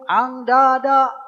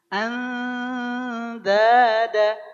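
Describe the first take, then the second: First: The nasal sound is a back 'ng'. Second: The nasal sound is close to 'n'. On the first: The speaker calls it wrong. "Ikhfa adalah mengengkan semua huruf ... Tidak" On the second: The speaker calls it right. "Gini. Andada, andada, bukan ang"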